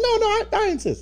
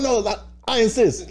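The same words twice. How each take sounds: First: Even higher, squeakier insisting; higher polite insist. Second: High, mock-polite insisting; insisting politely. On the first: Retold or imitated. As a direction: push the politeness way up. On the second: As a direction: playfully overdo the politeness. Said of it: "I was like".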